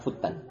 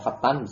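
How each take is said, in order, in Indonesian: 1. Vokal pertama adalah bunyi 'u' yang membulat. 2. Vokal pertama adalah bunyi 'a' yang terbuka. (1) "Itu bacanya futtan" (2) "Tapi bisa juga membaca fatan ya, enggak masalah"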